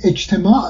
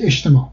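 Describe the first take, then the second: First: اجتماع with its final glottal stop sounded; as written. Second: اجتماع as eshtema, open final vowel; as read. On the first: Linguist dictating the correct spelling, pronounced as written. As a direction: pronounce اجتماع letter by letter, ain included. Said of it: "شما باید بنویسید اجتماع". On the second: Linguist telling how to read it, everyday pronunciation. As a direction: say sh and drop the ain in اجتماع. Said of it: "و بخونید اجتماع". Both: Shown as a demonstration.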